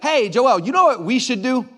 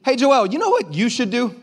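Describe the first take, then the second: First: Louder, higher suggestion leaning on "we"; stress on "we". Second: Higher-pitched mock suggestion punching "you"; stress on "you". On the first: Acted. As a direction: pitch it to the pastor as what "we" should do, "we" stressed. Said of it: "you know what they mean when they say that". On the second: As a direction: put the weight on "you", handing over the job. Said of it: "That's what they mean".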